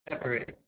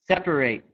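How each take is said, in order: First: The last syllable sounds like 'it'. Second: The last syllable sounds like 'ate'. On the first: It is used as a noun. "A T E at the end of a noun is pronounced I T" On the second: It is used as a verb. "verbs on left"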